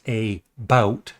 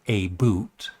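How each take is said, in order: First: The second syllable rhymes with 'out'. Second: The second syllable rhymes with 'boot'. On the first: The speaker calls it right. "the word about is pronounced a bout" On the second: The speaker calls it wrong. "not a boot"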